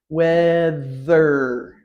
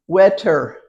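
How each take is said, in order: First: The middle consonant is a TH sound. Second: The middle consonant is a T sound. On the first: The speaker calls it right. "T H, two sounds together" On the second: The speaker calls it wrong. "Is that right? No"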